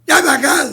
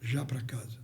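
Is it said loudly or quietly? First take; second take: loudly; quietly. First: It is said loudly, with a raised voice. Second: It is said quietly, in a calm voice.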